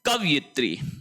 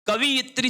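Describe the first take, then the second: First: The second syllable is said with an 'a' vowel. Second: The second syllable is said with an 'i' vowel. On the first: The speaker calls it right. "शब्द होता है कवयित्री" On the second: The speaker calls it wrong. "कवियित्री शब्द बिल्कुल गलत है"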